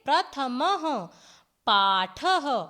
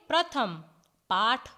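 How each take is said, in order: First: Each word ends with a breathy 'ha' echo. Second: The words end without any breathy h-sound. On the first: This is the Sanskrit reading with visarga. "विसर्ग लगाते हैं तो हम संस्कृत में इनका उच्चारण करेंगे" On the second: This is the Hindi reading. "जैसे हिंदी में हम पढ़ते हैं"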